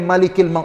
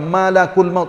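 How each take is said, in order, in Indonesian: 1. Kata pertama memiliki vokal i: malikil. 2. Kata pertama memiliki vokal a: malakul. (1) "bukan malikil maut dak" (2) "Malaikat malak baca dia, malakul maut"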